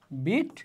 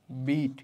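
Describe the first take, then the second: First: বিট said like English bit, short i; বিট as bit, short vowel. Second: বিট said like English beet, long ee; long vowel beet. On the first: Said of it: "এখানে বিআইটি যে বিট, এটা হচ্ছে রস্ব স্বর". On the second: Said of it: "আর বিইএটি বিট, এটা হচ্ছে দীর্ঘ স্বর". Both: Shown as a demonstration.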